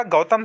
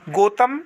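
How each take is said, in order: First: गौतम as "gau-tam"; correct au vowel. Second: गौतम as "go-tam"; wrong plain o. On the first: Teacher giving students the right form, au sounded. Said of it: "सही होगा". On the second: Teacher showing students the mistake, vowel narrowed. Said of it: "गलत होगा". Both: Shown as a demonstration.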